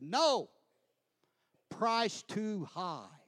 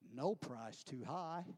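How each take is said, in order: First: There is a pause after "no". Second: It is said without a pause after "no".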